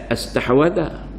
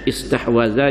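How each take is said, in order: First: The word begins with an 'a' vowel. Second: The word begins with an 'i' vowel. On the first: The speaker calls it wrong. "jangan baca astahwadha" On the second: The speaker calls it right. "Kena ambil baca istahwadha"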